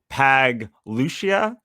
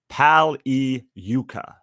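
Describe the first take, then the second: First: The g is sounded, like Pag-Lucia. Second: The g is silent, like Pal-yu-ca. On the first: The name is read as it looks on paper. The speaker calls it wrong. "it looks like uh Pag Lucia" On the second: The name is said the way its owner says it. The speaker calls it right. "but it is uh Pagliuca"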